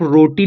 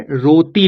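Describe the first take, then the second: First: रोटी with tongue curled back; hard retroflex t in रोटी. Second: रोती with tongue on the teeth; dental t. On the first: Teacher comparing two readings for learners, रोटी with retroflex t. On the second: Teacher comparing two readings for learners, रोती with dental t. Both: Shown as a demonstration. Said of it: "रोती भी बोल सकते हैं".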